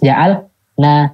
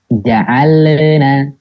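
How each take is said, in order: First: A gap separates the L from the N. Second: An extra bouncing sound comes between L and N. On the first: "Tapi jangan juga terputus" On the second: "Jadinya terdengar mantul"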